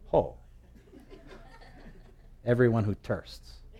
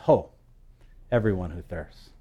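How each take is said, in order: First: It is said in a Hawaiian Pidgin accent. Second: It is said in a standard English accent.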